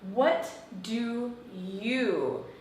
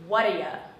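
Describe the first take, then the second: First: Each word is said separately and fully. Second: The words run together, ending in ya.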